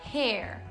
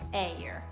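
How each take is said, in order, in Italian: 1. La parola hair inizia con un suono H. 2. La parola hair inizia con una vocale, non con la H. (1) "La pronuncia della parola capelli in inglese è hair. Hair e non air" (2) "e non air"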